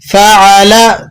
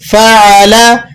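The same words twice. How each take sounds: No difference in how they are said.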